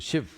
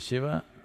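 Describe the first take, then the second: First: The word ends without a final vowel. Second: The word ends with a final vowel. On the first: "they'll say" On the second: "If you say"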